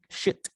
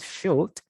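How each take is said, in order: First: The L sound is left out completely. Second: The L sound is pronounced in the word. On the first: The speaker calls it right. "forget about the L" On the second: The speaker calls it wrong. "not should"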